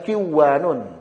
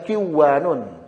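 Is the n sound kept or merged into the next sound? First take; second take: merged; merged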